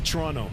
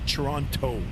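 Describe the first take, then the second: First: The second T sound is dropped entirely. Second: The second T sound is clearly pronounced. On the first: The speaker is a local. The speaker calls it right. "if you're a local, it's Toronto... It's like there's no second T" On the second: The speaker is not from the city. The speaker calls it wrong. "some people that are not from here, uh, the way they pronounce Toronto"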